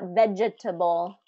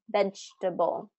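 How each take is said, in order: First: Every syllable is fully pronounced. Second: A middle syllable is dropped or reduced. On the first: The speaker calls it wrong. "Not vegetable" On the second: The speaker calls it right. "We want to do vegetable"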